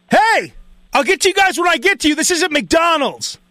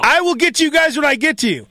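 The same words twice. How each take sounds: First: High, rushed scolding, slowing at the end; mock irate cook. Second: Mock scolding with "will" spelled out in full; high-pitched, measured insistence on "I will get to you"; emphatic repeat. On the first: Cook turns on people in line, imitated irritated scolding. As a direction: rattle off a testy put-down, then stretch the last part. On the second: Cook to people in line, imitated emphatic scolding on "will".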